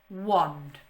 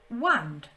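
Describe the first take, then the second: First: The vowel sounds like the o in 'on'. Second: The vowel sounds like the a in 'and'. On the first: The speaker calls it right. "This a here makes an o sound in this word" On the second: The speaker calls it wrong. "That doesn't sound right, does it?"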